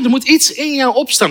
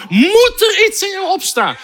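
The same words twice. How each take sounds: First: Said in the usual way. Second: "moet er iets in jou opstaan" pitched high and urgent; emphatic exhortation. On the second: Real, not acted. Preacher urging believers, "moet er iets in jou opstaan" high and emphatic. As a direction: drive "moet" up high, insistently. Repeats exhortation with rising fervour.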